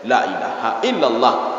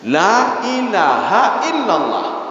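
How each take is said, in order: First: The first vowel in 'la' is cut short. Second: The first vowel in 'la' is held long. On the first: Surely there is a god other than Allah. The speaker calls it wrong. "Tapi kalau dibaca la pendek" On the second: There is no god except Allah. The speaker calls it right. "Ini kalau dibaca la panjang"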